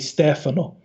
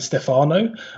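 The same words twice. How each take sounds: First: The stress is on the first syllable. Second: The stress is on the second syllable. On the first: The speaker calls it right. "it's the Steph bit rather than the ah bit" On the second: The speaker calls it wrong. "the emphasis is slightly in the wrong place"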